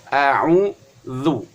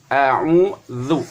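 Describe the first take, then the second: The two takes are said the same way.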